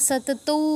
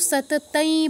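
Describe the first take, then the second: First: The word ends in an 'au' sound. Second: The word ends in an 'ai' sound. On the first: "সাতাতাই বা সাতাতৌ বলবো না" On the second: "সাতাতাই বা সাতাতৌ বলবো না"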